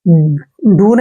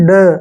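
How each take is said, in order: First: The vowel is a long oo sound. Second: The vowel is a short uh sound. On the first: The speaker calls it wrong. "डू नहीं करना है" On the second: The speaker calls it right. "D यू का उच्चारण ड करते हैं"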